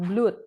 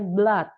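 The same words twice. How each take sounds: First: The vowel is long, as in 'food'. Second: The vowel is short, as in 'bud'. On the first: The speaker calls it wrong. "bukan blood" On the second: The speaker calls it right. "bacanya blood"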